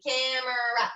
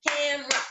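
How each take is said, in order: First: "camera" drawn out as cam-er-ah; slow, three syllables. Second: "camera" as cam-ra, middle vowel dropped; two syllables. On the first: Teacher showing how it would be real slow, "camera" as cam-er-ah. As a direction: give "camera" three clear beats, cam-er-ah. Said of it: "If you guys did it real slow". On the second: Teacher explaining it's actually two, "camera" said as cam-ra. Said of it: "It's actually two". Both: Shown as a demonstration.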